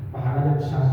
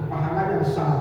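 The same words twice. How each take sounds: The two takes are said the same way.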